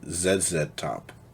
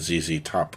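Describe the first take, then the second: First: The letter Z is said the British way. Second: The letter Z is said the American way.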